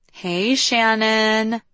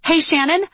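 First: Higher, long-held hello; drawn-out greeting. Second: Much higher, rising mock repeat; incredulous echo. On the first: Liv greets the friend who came to collect her, drawn-out greeting. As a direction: stretch the greeting out slowly. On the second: Friend parrots Liv's casual greeting back at her, incredulous echo. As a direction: throw the greeting back in disbelief. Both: A narrator's reading.

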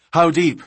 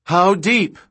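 First: Urgent question. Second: High, loud demand rising at the end; raised, urgent question; insistent shouted question. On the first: First urgent question during chase. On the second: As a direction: shout it, pressing for an answer. Repeats unanswered question more urgently. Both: A narrator's reading.

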